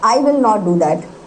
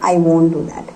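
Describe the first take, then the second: First: Both words 'will not' are said in full. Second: 'Will not' is shortened into one syllable, 'won't'. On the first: "कैसे भी बोल लीजिए आप" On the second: "कैसे भी बोल लीजिए आप"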